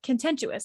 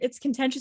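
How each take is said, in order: First: The word is said with an added 'you' sound. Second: The word is said without a 'you' sound. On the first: The speaker calls it wrong. "No, there's no you" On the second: The speaker calls it right. "Do you know that that's not the word?"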